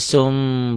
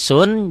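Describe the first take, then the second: First: The syllable ends with an m sound. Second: The syllable ends with an n sound.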